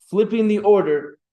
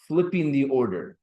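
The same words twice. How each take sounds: First: Whole phrase said louder and higher, "Flipping" hit hardest; emphatic repeat. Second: Said in the usual way. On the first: Shown as a demonstration. Teacher to class, stressing "Flipping the order" loudly. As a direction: drive home "Flipping the order" with a raised, loud voice.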